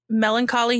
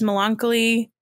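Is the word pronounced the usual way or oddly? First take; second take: usual; odd. First: The word is pronounced the usual way. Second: The word is pronounced in an odd way. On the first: The speaker calls it right. "instead of melancholy" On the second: The speaker calls it wrong. "he says melancholy"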